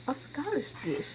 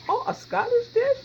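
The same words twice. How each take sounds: First: Said in the usual way. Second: High, loud, amazed question; mock surprise. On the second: Cook pretends to be amazed by her own fact, hammed-up surprise. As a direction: gasp it back as if astonished. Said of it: "I'm just kidding".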